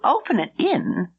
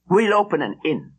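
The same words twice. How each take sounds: First: Higher, rising in disbelief; surprised question. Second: Said in the usual way. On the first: A narrator's reading. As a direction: echo it back, astonished. Gladys surprised at the idea.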